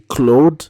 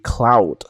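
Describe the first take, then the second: First: The name is given a French pronunciation. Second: The name is given a Dutch pronunciation. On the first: "in French, you would say Claude" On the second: "That is how you pronounce it"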